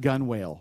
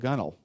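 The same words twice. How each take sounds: First: The word is said as spelled, 'gun-wale'. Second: The word is said short, like 'gunnel'. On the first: The speaker calls it wrong. "It's not gunwale like it looks" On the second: The speaker calls it right. "did I say that right?"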